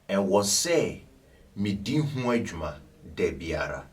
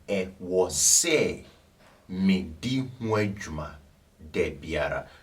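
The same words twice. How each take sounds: First: It is said at a faster pace. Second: It is said at a slower pace.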